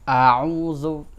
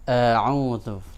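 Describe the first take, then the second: First: The first vowel is full, heavy and wide open. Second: The first vowel is thin and light. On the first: The speaker calls it wrong. "tidak diucapkan a'udzu" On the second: The speaker calls it right. "tapi a'udzu"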